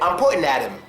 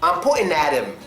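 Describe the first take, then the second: No difference in how they are said.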